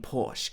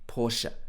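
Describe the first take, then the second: First: It is said as one syllable. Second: It is said as two syllables. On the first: The speaker calls it wrong. "a lot of people saying Porsche" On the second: The speaker calls it right. "the correct pronunciation should be Porsche with two parts"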